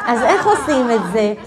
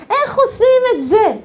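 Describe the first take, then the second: First: Said in the usual way. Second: High-pitched, insistent outcry; exclaimed question. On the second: Acted. Teacher repeating her question to the class, high outcry. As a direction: throw the question up high, half laughing.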